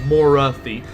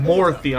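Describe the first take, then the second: First: The middle vowel is pronounced in the name. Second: The middle vowel is dropped from the name. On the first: "I'm saying Morathi" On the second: "you're not pronouncing the A. I'm not saying Morthy"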